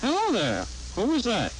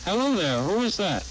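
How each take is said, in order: First: "Hello there, who is that" swooping very high then dropping; doubled inflection. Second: "Hello there, who is that" with ordinary rise and fall; natural pitch swing on HELLO THERE, WHO IS THAT; normal inflection. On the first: Demonstrator repeating the sentence, doubled swing on "Hello there, who is that". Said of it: "Two-to-one". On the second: Demonstrator repeating the sentence, normal swing on "Hello there, who is that". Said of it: "One-to-one". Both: Shown as a demonstration.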